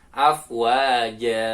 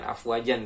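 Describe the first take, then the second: First: The word ends in a long a vowel. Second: The word ends in -an with an n. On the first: The word comes at the end of a verse with a stop. The speaker calls it right. "dibacanya ja panjang" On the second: The word is read as if mid-verse. The speaker calls it wrong. "bukan afwajan"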